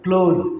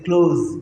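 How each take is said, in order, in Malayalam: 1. ഈ വാക്ക് മൂളുന്ന z ശബ്ദത്തിൽ അവസാനിക്കുന്നു. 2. ഈ വാക്ക് മൂളുന്ന z ശബ്ദത്തിൽ അവസാനിക്കുന്നു.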